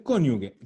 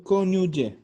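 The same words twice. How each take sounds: First: Cónyuge said with a hard g, as in "gue"; cónyuge ending in a hard "gue"; hard g slip. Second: Cónyuge said with an English j sound for the g; cónyuge with g as in Italian "gelato"; corrected Italian soft g. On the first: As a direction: mispronounce cónyuge with g as in "guerra". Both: Real, not acted. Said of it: "perdón".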